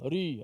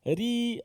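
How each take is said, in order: First: The r is pronounced lazily with little effort. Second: The r is made far too thin, overdone. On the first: "malas sangat" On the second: "sampai muka macam tu, takut orang tengok"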